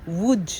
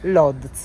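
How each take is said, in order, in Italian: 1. Si dice con suoni polacchi, come 'woodge'. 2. Si legge come è scritto, con suoni italiani. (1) "ma in realtà si dice Łódź" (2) "noi la leggiamo Lodz"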